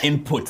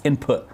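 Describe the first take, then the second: First: The t sound is clearly pronounced. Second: The t sound is left silent. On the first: The speaker calls it wrong. "It's not input, as we Zambians would pronounce it" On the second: The speaker calls it right. "I know the T is silent"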